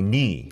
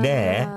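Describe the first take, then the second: First: The word ends with an 'i' vowel. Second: The word ends with an 'e' vowel. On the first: "you often say ni" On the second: "when you say ne, as in meaning you"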